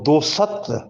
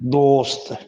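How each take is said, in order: First: A vowel is inserted between the s and t. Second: The s and t are said without a vowel. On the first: The speaker calls it wrong. "अक्सर इसको दो सत्र पढ़ते हैं, ये दो सत्र नहीं है" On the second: The speaker calls it right. "सीन और ते ये दोनों हुरूफ साकिन रहेंगे"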